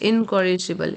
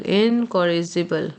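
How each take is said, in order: First: Said in the usual way. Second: Slow model word. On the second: Shown as a demonstration. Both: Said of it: "repeated model word".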